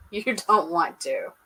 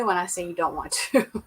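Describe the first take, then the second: First: "You don't want to" drawn out slowly, leaning on "don't"; slow it down and stress "don't" as a warning; slow emphatic repeat. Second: Said in the usual way. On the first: Real, not acted. Warning Colby about scorpions, slow stressed "don't".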